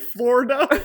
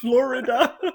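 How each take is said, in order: First: The word is said with two syllables. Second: The word is said with three syllables. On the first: This is how the other person says it. "Like it's F L O R D A" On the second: This is the usual way to say it. "instead of"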